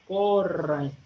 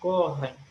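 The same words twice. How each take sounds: First: The R is rolled with the tongue tip. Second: The R is made deep in the throat. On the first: "ellos dicen la R como la R española" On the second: "esa R que es como viene más de la garganta"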